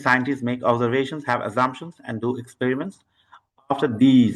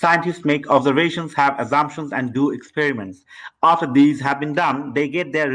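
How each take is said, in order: First: Read-aloud demo. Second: Read-aloud without waiting. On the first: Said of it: "তো দেখে নেই". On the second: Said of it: "আমি direct start করে দিই". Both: Shown as a demonstration.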